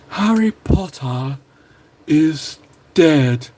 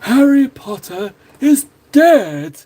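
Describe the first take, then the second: First: Very slow, drawn-out line in a put-on voice; bad Voldemort impression. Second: Higher, louder, very slow gloating villain voice; Voldemort impression. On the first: Admits he can't do it, lightly voiced gloating villain. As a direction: savour each word like a gloating dark lord. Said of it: "can't do the impression". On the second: Second try, heart in it, hammed-up gloating dark lord. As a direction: drag it out with hammy menace. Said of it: "It's not a good impression".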